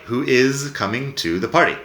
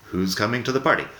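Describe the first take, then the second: First: "Who is" said as two separate words, each sounded out; full form demo. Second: "Who's" run together as a single "hooz"; contracted form demo. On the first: Teacher showing students the long form "Who is" before the short one. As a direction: spell out "Who is" in full, unhurried. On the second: Teacher showing students the short form "Who's" after the long one. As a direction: squeeze "Who's" into one quick syllable. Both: Shown as a demonstration. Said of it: "Tengo dos ejemplos de frases".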